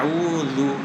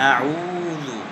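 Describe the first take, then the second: First: The lips are rounded twice across the word. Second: The lips are rounded once across the word. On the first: The speaker calls it wrong. "দুইবারে ঠোঁট গোল করে পড়ি" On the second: The speaker calls it right. "একবারেই ঠোঁট গোল করে পড়তে হবে"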